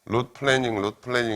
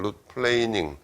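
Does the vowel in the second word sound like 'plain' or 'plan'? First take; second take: plan; plain. First: The second word has the vowel of 'plan'. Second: The second word has the vowel of 'plain'. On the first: The speaker calls it wrong. "root planning 이렇게 발음하는데 그건 틀렸고" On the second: The speaker calls it right. "plain 어떤 평면이라는 plain이라는 게 동사로 쓰면 이렇게 평평하게 하다"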